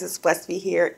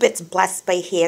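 First: It is spoken in the speaker's normal accent. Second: It is spoken in a put-on British accent.

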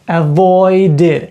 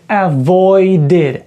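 Both takes have the same delivery.

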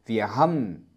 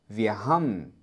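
Both takes have the same delivery.

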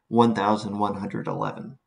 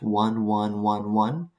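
First: It is read as one whole number. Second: Each digit is read out separately as one. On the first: The number is written in decimal. The speaker calls it wrong. "That last verbal phrasing implies a decimal system" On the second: The number is written in binary. The speaker calls it right. "carefully I read the answer as 1111"

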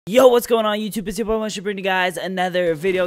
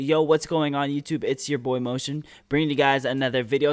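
First: It is said very fast, words bunched together. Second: It is said slowly, words clearly separated.

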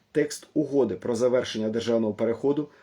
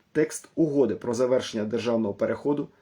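The two takes are said the same way.

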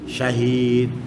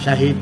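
First: The final vowel is lengthened. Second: The final vowel is cut short. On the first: The speaker calls it right. "ada matnya" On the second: The speaker calls it wrong. "Bukan Syahid"

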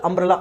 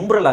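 First: The word begins with an 'ah' vowel sound. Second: The word begins with a 'yu' sound. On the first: The speaker calls it right. "ಆ ತಾನೇ ಬರೋದು" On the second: The speaker calls it wrong. "ಇದು ಯುಂಬ್ರಲ್ ಆಗಬೇಕು"

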